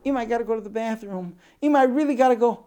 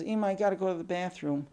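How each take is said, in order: First: Put-on high, fast child's plea, getting louder; urgent little girl. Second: Lightly voiced child, pitched higher; little girl pleading. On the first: Older sister desperate for the bathroom, urgently pleading. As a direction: beg mother in a rushed, rising kid voice. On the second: Older sister needing the bathroom, mildly pleading. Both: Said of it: "The sister comes in and says".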